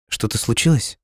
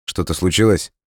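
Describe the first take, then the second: First: Higher-pitched, worried question; anxious. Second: Said in the usual way. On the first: A narrator's reading. Girl asking Dima after the phone call, anxious. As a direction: ask in alarm, pitch rising at the end. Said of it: "в тревоге спросила девушка".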